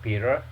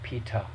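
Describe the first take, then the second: First: The final R is pronounced, ending with 'er'. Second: The final R is dropped, ending open. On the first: "American accent will be like Peter. They say R sound" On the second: "It's going to be pita, we leave it open"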